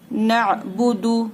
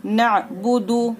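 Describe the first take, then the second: First: नअबुदु with no stretching; short vowels. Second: नअबुदु repeated, short vowels, paused end; no vowel stretched in नअबुदु. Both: Shown as a demonstration. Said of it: "खींचना नहीं है बिल्कुल भी".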